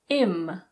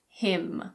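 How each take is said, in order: First: The word is reduced with the H dropped. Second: The word is said in full with its H.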